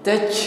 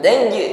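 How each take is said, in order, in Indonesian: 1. Konsonan akhir memantul dengan semburan udara. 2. Konsonan akhir memantul dengan bersih tanpa udara yang keluar. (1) "seolah-olah yang memantul bukan bunyi huruf tetapi angin yang memantul" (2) "ini qalqalah bunyi hurufnya memantul"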